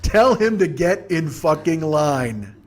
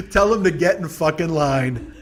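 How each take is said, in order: First: Half-speed punchline, every word drawn out; slow, emphatic. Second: Slow retort breaking out of a big laugh; through laughter. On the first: Comic repeating his verdict on bored kid, slow emphatic delivery. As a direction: spell it out slowly for effect. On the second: Comic joking about a bored kid, laughing slow retort. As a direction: crack up, then stretch the retort out. Says it while cracking up. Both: Real, not acted.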